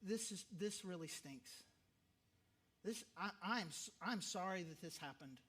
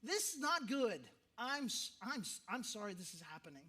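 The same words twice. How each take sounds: First: Soft, quiet words of comfort; gentle condolence. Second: Stronger condolence. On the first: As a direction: tell the grieving person gently that it stinks. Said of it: "you just say to whatever level". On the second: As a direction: give the more colorful version of the comfort. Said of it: "be more colorful ... go for it". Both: Shown as a demonstration.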